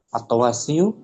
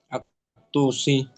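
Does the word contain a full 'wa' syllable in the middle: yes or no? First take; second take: yes; no. First: A full 'wa' syllable is heard mid-word. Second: No 'wa' syllable is heard mid-word. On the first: The speaker calls it wrong. "Agak ganjil dengar" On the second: The speaker calls it right. "Nah, atusi gitu"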